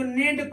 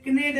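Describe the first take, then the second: First: नेड starting on N; silent K. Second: कनेड with K ahead of N; mistaken sounded K. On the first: Teacher shows students the reading, नेड without K. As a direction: say नेड with no K sound. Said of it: "इसको नेड पढ़ते हैं". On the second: Teacher warns off the misreading, कनेड with K. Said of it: "कनेड नहीं पढ़ते हैं". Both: Shown as a demonstration.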